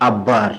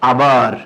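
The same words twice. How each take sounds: First: আব্বার with a long held double b; আব্বার, gemination of the b; doubled b. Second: Said in the usual way. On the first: Shown as a demonstration. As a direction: press the b in আব্বার into bb. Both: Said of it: "আমরা আবার মাঝে মাঝে কি বলি".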